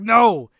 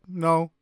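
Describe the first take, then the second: First: It is said forcefully, like an exclamation. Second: It is said flatly, without exclamation.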